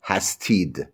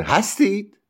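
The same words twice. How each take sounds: First: Said in the usual way. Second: "هستید" pitched high as a question; questioning tune. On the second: Shown as a demonstration. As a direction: ask "هستید" with a lifted voice. (لحن سوالی «هستید»)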